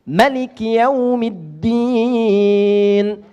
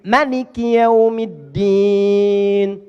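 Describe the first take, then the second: First: The first vowel of Maliki is short. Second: The first vowel of Maliki is short.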